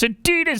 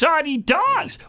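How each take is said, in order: First: It is said with the usual American pronunciation. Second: It is said with the European pronunciation. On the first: "it's not the way we pronounce" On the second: "in Europe, they pronounce Adidas Adidas"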